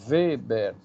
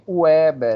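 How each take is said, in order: First: The name begins with a V sound. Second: The name begins with a W sound. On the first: The speaker calls it right. "No alemão, o W tem som de V" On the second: The speaker calls it wrong. "não chame Weber, isso é um, um negócio horrível"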